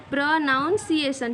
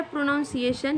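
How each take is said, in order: First: प्रोनाउंसिएशन said slowly as pruh-nun-see-ay-shun; slow, careful प्रोनाउंसिएशन with "nun" and not "noun"; correct pronunciation. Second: प्रोनाउंसिएशन said pro-NOUN-see-ay-shun, with the "noun" sound; प्रोनाउंसिएशन with the common wrong "pronounce" vowel, pro-nown; wrong pronunciation. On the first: Teacher modelling the right way to say प्रोनाउंसिएशन, slow pruh-nun-see-ay-shun. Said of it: "प्रोनाउंसिएशन बोलते हैं". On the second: Teacher showing students the wrong way to say प्रोनाउंसिएशन, pro-nown-see-ay-shun. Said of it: "ये बिल्कुल wrong है".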